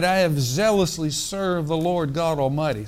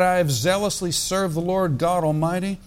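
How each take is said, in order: First: A mildly put-on smug, self-righteous Elijah; mock the prophet's pride with a knowing laugh. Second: Said in the usual way. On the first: Shown as a demonstration. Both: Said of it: "Sounds like a little self-righteousness here".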